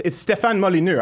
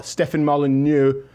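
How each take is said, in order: First: "Molyneux" said the French way, "mo-lee-neu". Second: "Molyneux" slowed to "mol-uh-noo"; careful name. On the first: Host showing he can say the guest's name in French. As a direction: give "Molyneux" its French sounds. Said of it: "I can say it". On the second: Host carefully introducing the guest's French surname. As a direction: slowly sound out "Molyneux". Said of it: "Did I get that right". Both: Shown as a demonstration.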